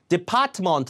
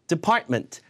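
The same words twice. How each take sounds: First: The first vowel is full and clear. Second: The first vowel is weak and reduced. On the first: The speaker calls it wrong. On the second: The speaker calls it right.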